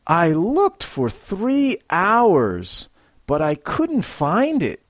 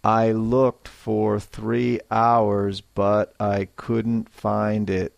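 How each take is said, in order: First: Higher, slow, stretched out; expressive frustration. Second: Said in the usual way. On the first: Shown as a demonstration. Teacher modelling a lost-item complaint, with feeling. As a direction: let the frustration show. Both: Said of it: "a little more feeling and life".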